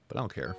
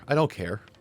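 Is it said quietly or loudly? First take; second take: quietly; loudly. First: It is said quietly and less clearly. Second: It is said loudly and clearly.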